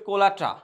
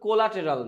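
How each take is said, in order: First: The ending is reduced, sounding like kola-ta. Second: Every syllable is spelled out, ending in -teral. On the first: The speaker calls it right. "এটার উচ্চারণ হচ্ছে কোলাটা" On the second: The speaker calls it wrong. "এটার উচ্চারণ কিন্তু কোলাটেরাল না"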